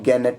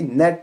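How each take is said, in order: First: The g is pronounced at the start. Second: The g is silent at the start. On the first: The speaker calls it wrong. "इसको हम गैनेट नहीं पढ़ेंगे" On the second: The speaker calls it right. "बल्कि नेट पढ़ेंगे, क्योंकि N से पहले जी है, जी साइलेंट रहेगा"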